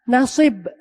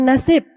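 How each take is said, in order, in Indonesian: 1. Diucapkan dengan bunyi asli bahasa Arab. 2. Diucapkan dengan bunyi bahasa Indonesia biasa. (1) "Nah, nasib" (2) "Bukan nasib"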